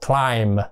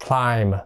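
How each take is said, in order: No difference in how they are said.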